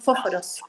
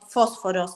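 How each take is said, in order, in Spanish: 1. Los sonidos de la s se pronuncian completos. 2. Los sonidos de la s están debilitados, casi tragados. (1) "decimos fósforos" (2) "vos es como que te las traga"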